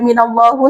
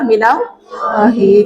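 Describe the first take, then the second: First: The word ends with an 'u' vowel. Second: The word ends with an 'i' vowel. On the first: The speaker calls it wrong. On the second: The speaker calls it right. "Yang betul adalah minallahi"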